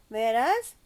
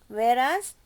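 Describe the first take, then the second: The two takes are said the same way.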